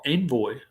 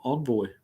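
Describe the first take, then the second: First: "Envoy" with an EN start; first pronunciation variant. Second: "Envoy" with an ON start; second pronunciation variant. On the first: Unsure of the car name, "Envoy" said EN-voy. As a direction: say "Envoy" with first syllable as in "hen". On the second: Offering the other car name reading, "Envoy" said ON-voy. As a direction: say "Envoy" French-style, as ON-voy. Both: Shown as a demonstration. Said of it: "Envoy or Envoy".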